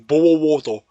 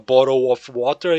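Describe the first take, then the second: First: It is said in a British accent. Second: It is said in a plain accent. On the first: "eles falam" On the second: "em vez de falar"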